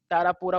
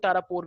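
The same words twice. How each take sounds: First: तारापुरा with a long 'aa' at the end; variant pronunciation. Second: तारापुर ending on the r; alternative pronunciation. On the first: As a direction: say तारापुरा, ending on an open -raa. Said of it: "तारापुरा बोलते हैं कुछ लोग". (तारापुरा, अंत में लंबे 'आ' के साथ) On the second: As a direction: say तारापुर with no final vowel. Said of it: "तारापुर भी बोलते हैं उसे". (तारापुर, अंत में 'र' पर खत्म) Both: Shown as a demonstration.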